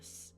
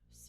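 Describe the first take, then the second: First: The vowel is dropped, leaving only s. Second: The u vowel is clearly sounded. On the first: "you end up with a s" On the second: "instead of su"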